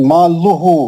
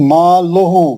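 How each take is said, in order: Both takes have the same delivery.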